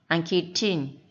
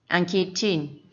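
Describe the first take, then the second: The two takes are said the same way.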